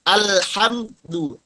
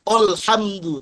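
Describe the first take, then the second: First: The opening hamzah sound is said thin. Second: The opening hamzah sound is said thick. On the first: The speaker calls it right. "tapi al, al, alhamdu" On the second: The speaker calls it wrong. "Jangan alhamdu"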